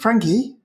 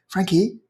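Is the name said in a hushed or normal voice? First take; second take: normal; hushed. First: The name is said in a normal speaking voice. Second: The name is said in a hushed voice.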